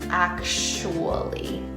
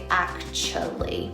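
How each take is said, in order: First: The t sound is dropped, w kept. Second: The middle oo sound is dropped. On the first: "you take out the T sound" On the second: "you take out the ooh"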